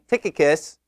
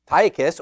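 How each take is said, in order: First: The first vowel is a short 'ih' sound. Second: The first vowel is a long 'eye' sound. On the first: "or is it a short I" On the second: "Is it a long I"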